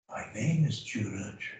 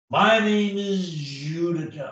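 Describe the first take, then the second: First: The voice is quiet and subdued. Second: The voice is loud and very animated. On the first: The speaker steps out of the spotlight. "When you talk in a soft voice, ... you're peeking out like this" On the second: The speaker draws full attention. "Be an extreme example of yourself. Let yourself go"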